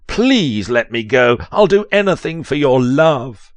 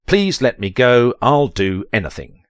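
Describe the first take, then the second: First: Hammed-up pleading. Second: Said in the usual way. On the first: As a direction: beg dramatically, voice climbing high. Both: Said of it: "You say".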